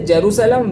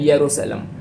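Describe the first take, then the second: First: The name begins with a J sound. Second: The name begins with a Y sound.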